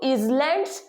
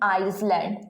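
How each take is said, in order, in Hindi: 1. पहला syllable 'iz' जैसा सुनाई देता है। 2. पहला सिलेबल 'eyes' जैसा सुनाई देता है। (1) "आई एस को आई एस हम जनरली रीड करते हैं इज ... गलत" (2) "बट ये भी होगा आपका गलत"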